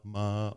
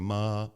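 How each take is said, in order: No difference in how they are said.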